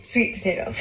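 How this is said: The stress is on sweet.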